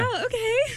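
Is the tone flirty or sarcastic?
flirty. It is said in a flirty tone.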